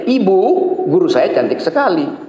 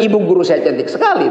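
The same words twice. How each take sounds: First: There is a pause after "Ibu". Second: It is said without a pause after "Ibu".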